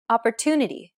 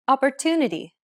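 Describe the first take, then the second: First: Opportunity with a long TU and the other syllables clipped; stress on TU. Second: Opportunity with the TU stretched long and higher; stress on TU. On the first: Teacher repeats Opportunity to show stressed timing. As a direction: hold the TU in Opportunity. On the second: Teacher shows English stress timing with Opportunity. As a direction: lean on the TU in Opportunity. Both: Shown as a demonstration. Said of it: "The stressed syllable to in opportunity is pronounced longer".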